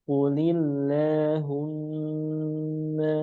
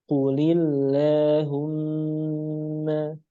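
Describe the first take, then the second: The two takes are said the same way.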